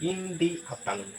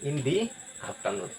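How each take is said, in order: First: 'The' is said with a long 'thee' vowel. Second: 'The' is said with a long 'thee' vowel.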